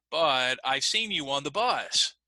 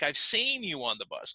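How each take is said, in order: First: Slow, "bus" stressed. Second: "seen" stressed, falling. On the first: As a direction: hit "bus" at the end. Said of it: "try it with the word bus". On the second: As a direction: lean on "seen". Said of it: "emphasize the word seen". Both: Shown as a demonstration.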